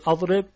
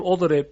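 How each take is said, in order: First: اضرب said with an open a as the first vowel, adreb; fatha version. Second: اضرب said with a rounded o as the first vowel, odreb; damma version. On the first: Teacher offering students the fatha reading of اضرب. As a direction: read اضرب starting with a, as the fatha option. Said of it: "فتحه بدیم". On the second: Teacher offering students the damma reading of اضرب. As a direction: read اضرب starting with o, as the damma option. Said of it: "ضمه بدیم؟". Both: Shown as a demonstration.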